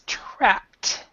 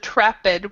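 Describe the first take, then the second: First: The word ends with a clear T sound. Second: The word does not end in a T sound. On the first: The speaker calls it right. "we would say this with a T, so it's trapped" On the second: The speaker calls it wrong. "instead of trapped"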